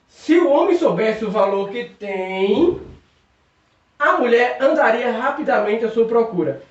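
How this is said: The pause comes right before 'a mulher'. The woman would go looking for the man. "se eu colocar vírgula aqui"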